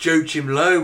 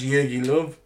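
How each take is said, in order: First: The name is pronounced with English sounds. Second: The name is pronounced with German sounds. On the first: The speaker calls it wrong. "you're saying it in English way" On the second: The speaker calls it right. "in Germany, it's pronounced"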